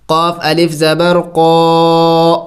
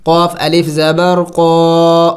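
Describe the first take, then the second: First: قا with a thick, heavy q; heavy qaf. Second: قاف الف زبر قا spelled slowly with heavy q; slow spelling, heavy قا; heavy qaf spelled. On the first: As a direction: give قا a full heavy q sound, drawn out. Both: Shown as a demonstration. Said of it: "قاف موٹے حروف میں سے ہے".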